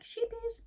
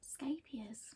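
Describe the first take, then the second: First: The word begins with an 'sh' sound. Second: The word begins with an 'sk' sound. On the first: The speaker calls it wrong. "I've been saying sheepies forever" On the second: The speaker calls it right. "Scapiers, apparently"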